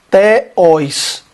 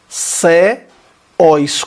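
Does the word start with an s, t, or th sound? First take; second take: t; s. First: It begins with a plain t sound. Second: It begins with an s sound. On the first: "Se fosse teós, seria teós, como tal" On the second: "Se fosse ceós, seria ceós, com sigma"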